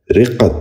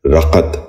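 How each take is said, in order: First: رقت said "riqqat", short "i" and doubled q; correct pronunciation. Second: رقت said "raqat", with an "a" in the first syllable; mispronounced vowel. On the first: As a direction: open رقت with "ri" and hold the q. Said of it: "درست تلفظ ہے". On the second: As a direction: open رقت with "ra" instead of "ri". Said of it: "یہ غلط تلفظ ہے". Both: Shown as a demonstration.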